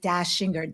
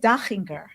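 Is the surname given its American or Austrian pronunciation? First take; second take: American; Austrian. First: The name is said the American way. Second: The name is said the Austrian way. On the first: "In this country, U S, we say Dashinger" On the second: "it's actually an Austrian last name. So it is Dachinger in Germanic countries"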